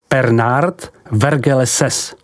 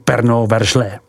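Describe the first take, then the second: First: The name is read as it is spelled. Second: The name is said with French sounds.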